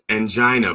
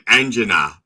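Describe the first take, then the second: First: It is said with an American pronunciation. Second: It is said with an Italian pronunciation. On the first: "my wife and I both said angina" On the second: "but they go like angina"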